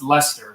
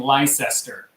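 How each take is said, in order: First: The name gets the local British pronunciation. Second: The name gets an American-style pronunciation. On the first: This is how the city's name is actually said. The speaker calls it right. "It's actually pronounced Leicester" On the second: This is how Americans would say it. The speaker calls it wrong. "that we've all been pronouncing Leicester"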